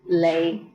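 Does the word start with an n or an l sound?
l. The word begins with an l sound.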